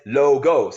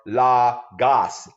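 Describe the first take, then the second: First: The first vowel is a plain 'oh' sound. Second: The first vowel is an open 'aw' sound. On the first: This is how most people say it. "many people pronounce it as logos" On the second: This is how scholars of language say it. "many linguists pronounce it as lagos or lagos, L A W G A G A H S"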